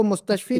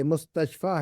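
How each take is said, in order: First: मुस्तशफी ending in a long "ee"; wrong reading मुस्तशफी, "-fee" at the end; mispronounced ending. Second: मुस्तशफा ending in a long "aa"; careful मुस्तशफा, open "-faa" at the end; correct ending. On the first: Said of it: "इसको मुस्तशफी नहीं पढ़ना आपने". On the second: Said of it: "ये मुस्तशफा है ये". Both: Shown as a demonstration.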